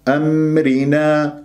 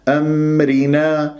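No difference in how they are said.

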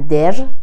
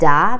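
First: The word ends with a clearly pronounced r. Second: The word ends in a plain 'a' vowel. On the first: "نمیگن در" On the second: "نمیگن دا"

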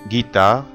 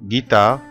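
No difference in how they are said.

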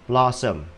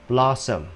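Both takes have the same delivery.

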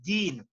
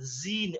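First: The word starts with a d sound. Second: The word starts with a z sound. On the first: The speaker calls it right. "It's not Deen or anything, it's Deen" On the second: The speaker calls it wrong. "Zeen, or Zeen comes out"

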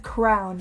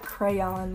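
First: The word sounds like 'crown', in one syllable. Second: The word sounds like 'cray-on', in two syllables. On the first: The speaker calls it right. "is crown" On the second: The speaker calls it wrong. "not crayon ... I know it's spelled like crayon"

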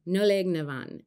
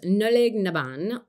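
First: The last word starts with a V sound. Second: The last word starts with a B sound. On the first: The speaker calls it right. "It might be Van" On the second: The speaker calls it wrong. "Pretty sure I might have said that wrong"

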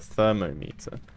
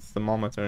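First: It is said as thermo followed by meter. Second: It is said the usual blended way. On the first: "instead of thermometer? Like it's spelt the same" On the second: "why is it called thermometer"

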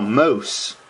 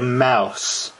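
First: The word sounds like 'moose'. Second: The word sounds like 'mouse'. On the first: The speaker calls it right. "But then it was actually, oh, moose" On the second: The speaker calls it wrong. "I thought it said mouse"

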